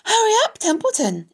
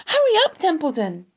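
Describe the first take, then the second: First: Mocking high-pitched imitation; Wilbur. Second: Very high, loud hurrying cry; urgent plea. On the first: Rat throws the pig's plea back, mocking imitation. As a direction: mimic the pleading, high and fast. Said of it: "He began imitating Wilbur's voice". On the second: Wilbur hurries the idle rat, urgent plea. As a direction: call out impatiently, high and pleading. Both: A narrator's reading.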